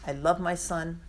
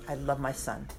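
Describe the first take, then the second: First: Said in the usual way. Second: "I love my Son" said much softer and lower, almost fading out. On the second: Shown as a demonstration. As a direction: let the last "love" sink to a hush. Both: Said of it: "God says three times".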